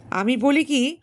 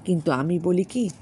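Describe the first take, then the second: First: বলি higher and louder with a rise; pointed repeat. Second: Said in the usual way. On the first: Acted. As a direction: lift বলি high, coaxing. Bilas repeats more pointedly.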